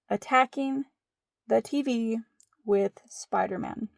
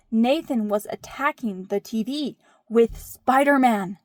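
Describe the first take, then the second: First: "Attacking", "the T V", "with Spider-Man" set apart by pauses; deliberate repetition. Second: Emphatic kid tattling, lightly imitated; child's dramatic report. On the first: Retold or imitated. Storyteller repeats the report for effect. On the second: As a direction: report it like an indignant child, punching SPIDER-MAN. Quotes oldest child reporting the attack.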